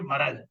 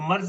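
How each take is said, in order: First: It is two syllables with a vowel between r and z. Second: It is one syllable with no vowel between r and z. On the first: The speaker calls it right. "वजन है एक दो ... लफ्ज सही है मरज" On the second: The speaker calls it wrong. "मर्ज का वजन क्या, दो एक, तो मर्ज नहीं"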